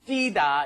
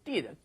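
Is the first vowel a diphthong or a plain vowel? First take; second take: diphthong; plain vowel. First: The first vowel is a full two-part diphthong. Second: The first vowel is reduced to one plain vowel. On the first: This is the original pronunciation. "is the original pronunciation" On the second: This is how most people commonly say it. "a lot of people say"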